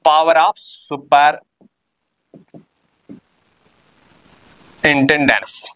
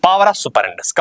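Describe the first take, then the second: First: Power of superintendence stretched out word by word, very slow; slowly dictated term. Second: Said in the usual way. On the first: Shown as a demonstration. Teacher dictating the term to students, very slow and drawn out.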